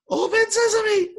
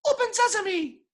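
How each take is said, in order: First: Much higher, louder, slow squeak; squeaky but forced. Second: Much higher, thin squeak; squeaky weak voice. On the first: Told to say it stronger, still a squeak. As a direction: push hard yet still squeak. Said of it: "Say it stronger". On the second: A weak guy at the cave door, squeaky. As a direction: squeak it out timidly. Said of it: "someone goes up and goes". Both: Retold or imitated.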